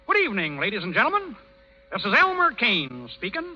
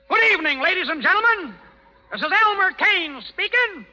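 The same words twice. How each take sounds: First: It is said quietly. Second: It is said loudly.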